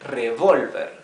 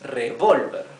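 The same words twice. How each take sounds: First: The stress is on the last syllable. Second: The stress is on the middle syllable. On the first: It means to stir or mix. "the accent is in the last syllable" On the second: It names the gun. "the accent is in this syllable. Vol"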